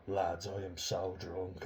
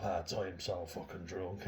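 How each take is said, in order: First: Slow, drawn-out mock drunk whine; attention-seeking drunk girl. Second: Insistent, slow, repeated bid for attention; louder attention-seeking drunk girl. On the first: Mocking a young woman seeking attention, slow drunken drawl. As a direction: stretch it out like she wants everyone to notice. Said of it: "looking for attention, going". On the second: Retold or imitated. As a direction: say it again, pushing harder for notice. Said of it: "and she says, like".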